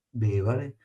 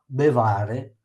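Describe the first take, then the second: First: The stress is on the first syllable. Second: The stress is on the second syllable. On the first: The speaker calls it right. "è sdrucciola, va sulla prima E" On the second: The speaker calls it wrong. "sulla penultima, non è possibile"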